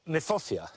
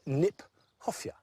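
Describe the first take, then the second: First: The word starts with a plain N sound. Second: The word starts with a K then N. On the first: The speaker calls it wrong. "in fact is mispronounced" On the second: The speaker calls it right. "We should pronounce it Kniphofia"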